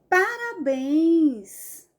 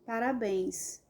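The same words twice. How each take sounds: First: It is said with emotion and emphasis. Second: It is said flatly, without any emphasis. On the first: The speaker calls it right. "tem que ter emoção" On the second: The speaker calls it wrong. "não deu ênfase nenhuma"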